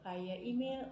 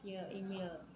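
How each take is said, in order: First: The first vowel of 'via' sounds like 'eye'. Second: The first vowel of 'via' sounds like 'ee'.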